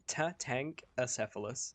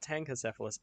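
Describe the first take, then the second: First: The name begins with the syllables 'tatanka'. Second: The name begins with the syllables 'tanka'. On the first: The speaker calls it right. "it is Tatankacephalus" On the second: The speaker calls it wrong. "it's not Tankacephalus"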